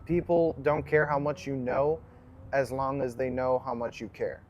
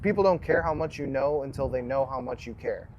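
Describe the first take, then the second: First: It is said slowly and deliberately. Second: It is said at normal conversational speed.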